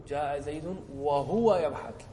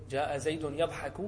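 First: وهو يضحك slowed right down and said louder, leaning on وهو; stress on وهو. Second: Said in the usual way. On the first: Shown as a demonstration. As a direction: draw out جاء زيد وهو يضحك and hit وهو. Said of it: "بالواو". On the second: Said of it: "بدون واو".

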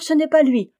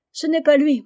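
First: Repeated through sobs, higher and louder; sobbing outcry. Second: A daughter in tears protesting; sobbing outcry. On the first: Aliette insists to her father through sobs. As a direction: insist again through tears. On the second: Aliette cries out to her father through sobs. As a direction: cry it out through sobs, higher and louder. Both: A narrator's reading. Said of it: "s'écria Aliette au milieu des sanglots".

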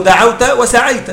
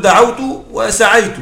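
First: "دعوت وسعيت" with each final ت voweled -ta; فتح تاء الخطاب. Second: "دعوت وسعيت" with each final ت voweled -tu; ضم تاء الفاعل. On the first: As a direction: end both words of "دعوت وسعيت" on an open "ta". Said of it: "ألحق به تاء الخطاب". (نطق "دعوت وسعيت" بفتح التاء في آخر الكلمتين) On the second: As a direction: end both words of "دعوت وسعيت" on a clear "tu". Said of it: "كان أقول". (نطق "دعوت وسعيت" بضم التاء في آخر الكلمتين) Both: Shown as a demonstration.

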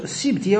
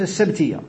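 First: السبتية said as as-sibtiyya, with i after the sin; kasra on the sin. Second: السبتية said as as-sabtiyya, with a after the sin; fatha on the sin. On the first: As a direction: pronounce السبتية with "sib", not "sab". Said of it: "المقصود السبتية وليس السبتية". (السبتية بكسر السين) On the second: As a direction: pronounce السبتية with "sab", not "sib". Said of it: "وليس السبتية". (السبتية بفتح السين) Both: Shown as a demonstration.

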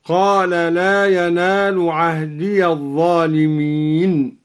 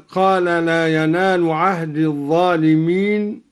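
First: عهدي read "ahdiya", joined onto the next word; voweled ya in عهدي. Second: Said in the usual way. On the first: Shown as a demonstration. Teacher showing al-Duri's joined reading, عهدي ending in "-iya". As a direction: open the final ya of عهدي with a short a. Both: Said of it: "وقرأ الدوري بفتح الياء وصلا".

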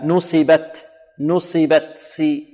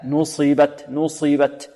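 First: Slow, thin hissed seen in نصبت, then سي; sad turned into seen. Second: Dark sad in نصبت, never a seen; correct heavy sad. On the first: Teacher demonstrates the error, sad becomes seen. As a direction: say نصبت as nusibat with plain s. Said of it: "ربما تصير سينا، هكذا". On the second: Teacher corrects the error, heavy sad. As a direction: say نصبت slowly with thick covered sad. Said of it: "لا". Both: Shown as a demonstration.

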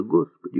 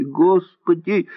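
First: Crying out. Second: High, drawn-out wail of despair; girl's desperate wailing cry, higher and slower; loud crying plea. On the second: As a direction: cry it out slowly to heaven. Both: A narrator's reading. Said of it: "громко заплакала Муся".

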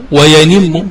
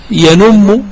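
First: وينم with an i after the ن, "wa-yanimmu"; slow, careful "wa-yanimmu" for وينم; kasra variant. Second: ينم with a u after the ن, "yanummu"; slow, careful "yanummu" for ينم; damma variant. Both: Shown as a demonstration. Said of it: "سمع هذا وذا".

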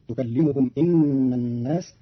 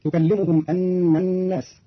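First: "إن" opening on i, inna; hamza with kasra. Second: Said in the usual way. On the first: Shown as a demonstration. Teacher shows Qalun's reading, "إن" with i. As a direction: say "إن" as inna, not anna. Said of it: "بكسر الهمزة فتصير". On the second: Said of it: "قرأ قالون كلمة أن".

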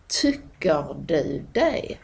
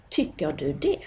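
First: Slow "Tycker du det" as "tucker döu dej"; broad Malmö pronunciation. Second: Said in the usual way. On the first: Shown as a demonstration. Teacher contrasting local speech, "Tycker" as slow "tucker". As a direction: stretch "du" and "det" into glides.

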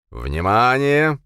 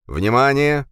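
First: Slow, loud, drawn-out call; loud warning. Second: Loud, high metallic alarm voice; booming metallic robot. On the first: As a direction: warn the crowd loudly. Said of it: "громко предупредил". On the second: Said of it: "металлический голос". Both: A narrator's reading.

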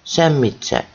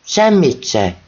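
First: Said in the usual way. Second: Mild yell. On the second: A narrator's reading. Drunk mother yells it at her son, mild yell. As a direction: let Semmit se burst out as a yell. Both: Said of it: "Ezt már üvölti".

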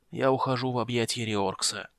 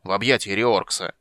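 First: Softer, frail dying whisper of a voice; very old faint voice. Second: Louder, stressing объятия in annoyance; irritated repeat. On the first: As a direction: fade out like a dying old man. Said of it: "слабым голосом выговорил гном". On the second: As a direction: spell it out as if to a fool. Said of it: "раздражённо повторил гном". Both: Acted.

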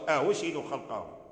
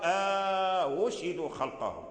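First: "أهشهدوا خلقهم" opening on a short a, then softened "hu"; no inserted alif. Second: "أهشهدوا خلقهم" with a slow, long held "aaa" before "hu"; inserted long alif. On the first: Teacher reading "أهشهدوا" like Warsh, no long alif. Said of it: "مثل ورش". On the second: Teacher showing Qalun's "أهشهدوا", long inserted alif. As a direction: stretch the first vowel of "أهشهدوا" before going on. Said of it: "يدخل ألفا بين الهمزتين". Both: Shown as a demonstration.

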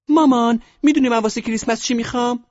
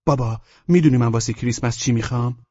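First: Put-on extremely high, loud girl's squeak; piercingly high put-on daughter voice; little daughter. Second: Put-on higher, louder boy's voice; raised, loud son character voice; eager son. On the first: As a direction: ask Mom in a tiny squeaky girl voice. Daughter asks mother about Christmas present. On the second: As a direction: ask Dad like an eager little boy. Son asks father about Christmas present.

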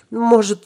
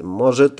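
First: Put-on high squeaky girl voice; self-important squeak. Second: Said in the usual way. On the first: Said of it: "важно пискнула она".

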